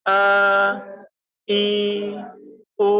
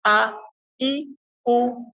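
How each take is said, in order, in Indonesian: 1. Vokalnya dipanjangkan dan melandai. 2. Vokalnya pendek, jelas, dan tegas. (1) "tidak boleh dilandaikan atau dipanjangkan" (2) "harus yang jelas dan tegas"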